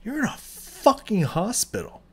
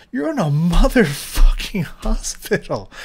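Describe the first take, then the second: First: Said in the usual way. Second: Loud, slow, angry restatement; louder angry repeat. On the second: Real, not acted. Ranting about hospital negligence, loud and slow. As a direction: hammer it home louder the second time.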